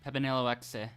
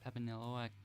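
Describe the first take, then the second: First: EXE is said as one word, 'exe'. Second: EXE is said as the single sound 'ex'. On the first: "I'm tempted to pronounce it like Pepinello Exe" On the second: "Or like Pepinello X"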